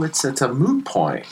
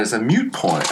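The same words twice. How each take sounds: First: "moot" with a plain oo, like "boot"; insisting on moot. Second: "mute" with a y glide, myoot; mistaken correction to mute. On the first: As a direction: insist on "moot", no y sound, slightly raised pitch. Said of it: "I'm like, No". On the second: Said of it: "she corrected me". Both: Retold or imitated.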